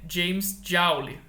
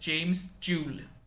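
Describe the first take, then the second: First: The surname's vowel sounds like the one in 'pound'. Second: The surname's vowel does not sound like 'pound'. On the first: The speaker calls it wrong. "a forma correta de se pronunciar o nome dele não é" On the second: The speaker calls it right.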